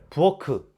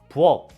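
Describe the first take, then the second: First: The word ends with an added keu syllable. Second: The word ends in a clipped k stop. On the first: The speaker calls it wrong. "부엌크 이렇게 발음하는 사람은 없겠죠?" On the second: The speaker calls it right. "기역으로 발음이 다 똑같죠?"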